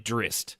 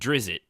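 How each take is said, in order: First: No vowel is heard before the final t. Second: An extra vowel is heard before the final t. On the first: The speaker calls it right. "it's actually Drist. ... there's no I at the between the Z and the T" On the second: The speaker calls it wrong. "I pronounced it Drizzt, which everybody did"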